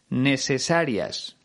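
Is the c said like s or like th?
s. The c is said as an s sound.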